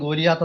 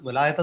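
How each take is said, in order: First: The second syllable sounds like 'lee'. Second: The second syllable sounds like 'lie'. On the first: This is the usual Malayalam pronunciation. "മലയാളത്തിൽ ഗോലിയാത്ത് എന്നാണ് നമ്മൾ പലപ്പോഴും പറയുന്നത്" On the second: This is the English pronunciation. "ഗൊലായത്ത് എന്നാണ് ഇംഗ്ലീഷിൽ അതിൻ്റെ ഒരു ഉച്ചാരണം"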